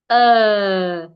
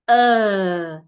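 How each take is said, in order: The two takes are said the same way.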